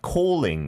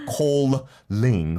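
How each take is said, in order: First: The middle l is said once, short. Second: The middle l is held long, doubled. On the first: The speaker calls it right. "Like calling as well" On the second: The speaker calls it wrong. "It's not"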